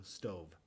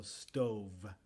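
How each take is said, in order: First: "stove" with a drawn-out, softer v; over-articulated v; exaggerated v. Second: Said in the usual way. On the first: Shown as a demonstration. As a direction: lean on the final v of "stove". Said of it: "digo stove". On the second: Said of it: "yo no digo stove".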